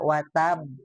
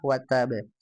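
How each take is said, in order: First: The final b is stopped with no bounce. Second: The final b is released with a bounce. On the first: The speaker calls it wrong. "kol-kolahnya suka hilang ya... dibaca watab" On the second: The speaker calls it right. "Harusnya ada kol-kolah watabe"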